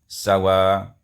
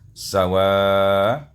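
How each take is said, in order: First: The final vowel is held short. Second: The final vowel is held medium length. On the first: "ma'al qasar, dibaca dengan qasar" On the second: "kemudian dibaca dengan tawassut"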